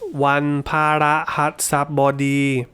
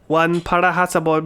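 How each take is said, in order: First: Each syllable is said slowly and separately. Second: All syllables are run together at speed. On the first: "we're breaking up the syllables" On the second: "Try and say seven syllables quickly"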